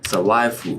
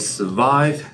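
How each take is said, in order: First: It is said in a foreign accent. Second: It is said in a standard English accent. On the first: This is how local learners say it. The speaker calls it wrong. "they will say survive" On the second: This is the usual English way to say it. The speaker calls it right. "instead of saying survive"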